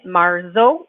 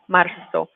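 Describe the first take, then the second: First: The middle consonant is a buzzing English z. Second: The middle consonant is a soft hissing s. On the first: The speaker calls it wrong. "we're not saying it marzo with a z sound like an English Z" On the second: The speaker calls it right. "it's like a soft S sound"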